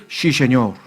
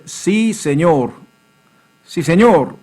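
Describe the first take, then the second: First: Put-on Sí said as 씨 in a Gyeongsang accent, lower. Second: Sí said with a clean s; slow, clear sí; correct Spanish. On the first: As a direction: Gyeongsang student saying 씨 세뇨. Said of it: "경상도 학생들은". (경상도 사투리 발음) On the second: Shown as a demonstration. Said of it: "하면 되는데". (바른 스페인어 발음)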